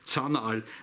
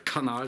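First: The name begins with a TS sound. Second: The name begins with a hard K sound. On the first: The speaker calls it right. "sondern Zanal" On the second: The speaker calls it wrong. "also nicht der Kanal"

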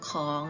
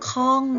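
First: The syllable is said with a rising tone. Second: The syllable is said with a falling tone. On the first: "จัตวาค่ะเสียงจัตวาก็จะเป็นของ" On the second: "ติมไม้โทลงไปจะเป็นข้อง"

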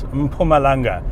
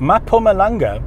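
First: The M runs straight into the P. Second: A vowel is inserted between the M and P. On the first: The speaker calls it right. "It's Mpumalanga" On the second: The speaker calls it wrong. "there is no A between the M and the P"

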